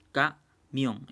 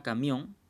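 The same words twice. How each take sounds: First: Camión slowly broken into ca, mión; split into syllables. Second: Said in the usual way. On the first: Shown as a demonstration. Teacher dividing a word for the class, camión syllable by syllable. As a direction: say camión as two separate syllables with a gap. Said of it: "se separa camión en dos sílabas". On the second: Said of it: "Por ejemplo, la palabra camión".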